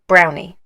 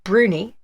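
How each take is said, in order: First: The first vowel sounds like 'ow'. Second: The first vowel sounds like 'oo'. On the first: The speaker calls it wrong. "not brownie" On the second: The speaker calls it right. "that's the right way of saying it"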